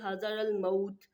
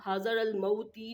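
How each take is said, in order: First: The last word ends on a bare t. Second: The last word ends with a vowel after t. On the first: The speaker calls it right. "बल्कि हाज़र अल मौत पढ़ते हुए वक्फ करेंगे" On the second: The speaker calls it wrong. "हम हाज़र अल मौती नहीं पढ़ेंगे"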